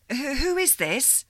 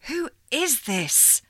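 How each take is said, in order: First: Higher, faltering startled question; startled stammer. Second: Higher, slow, insistent demand. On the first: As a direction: stumble on the first who. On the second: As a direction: press her for an answer. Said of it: "Sylvie demanded". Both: Acted.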